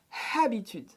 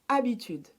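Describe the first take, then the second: First: The word starts with an audible H sound. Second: The word starts with a vowel; H is silent. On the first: The speaker calls it wrong. "So I don't want to hear habitude" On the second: The speaker calls it right. "You don't pronounce the H"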